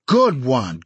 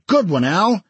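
First: Cheering. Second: Higher, louder cheering; excited cheer. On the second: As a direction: shout it out to a friend. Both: Acted. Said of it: "Al had made a Brooklyn hit".

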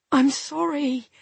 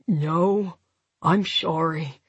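First: Higher, pleading regret; desperate apology. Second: Low, tired, slurred apology, sorry as "shorry"; weary, slurred. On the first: Remorseful woman to injured partner, desperate. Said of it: "more desperately this time". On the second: Injured man to his partner, weary and slurred. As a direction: wearily apologise through a numb lip. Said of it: "he said wearily". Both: A narrator's reading.

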